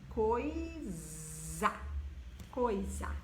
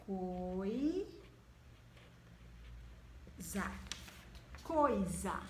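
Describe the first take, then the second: First: Coisa said slowly with a clear z sound. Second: Coisa said with a clear z sound. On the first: Teacher repeating coisa for the class. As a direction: stretch coisa to show the z. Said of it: "ele sai com o som de Z". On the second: Teacher showing pupils coisa with z. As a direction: say coisa buzzing the s. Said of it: "Vamos ver outra". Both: Shown as a demonstration.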